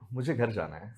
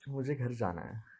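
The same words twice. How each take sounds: First: It is said while laughing. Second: It is said shyly.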